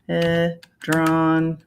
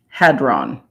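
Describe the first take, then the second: First: It has an extra middle syllable, ha-li-dron. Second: It has just two syllables, ha-dron. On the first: The speaker calls it wrong. "Don't know where the hell I got halidron" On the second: The speaker calls it right. "hadron H A D R O N"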